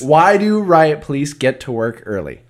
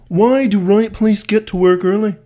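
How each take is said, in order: First: It is said in his normal voice. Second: It is said in a put-on voice.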